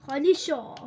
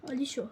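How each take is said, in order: First: خالی شو said louder and firmer; louder command. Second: Said in the usual way. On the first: Real, not acted. Gamer ordering his chest, repeating it louder. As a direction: push خالی شو out with more force.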